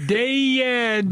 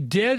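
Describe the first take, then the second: First: The word is drawn out into three syllables. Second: The word is said plainly in one syllable. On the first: The speaker calls it right. "Or three" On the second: The speaker calls it wrong. "don't say dead"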